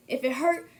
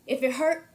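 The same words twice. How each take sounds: The two takes are said the same way.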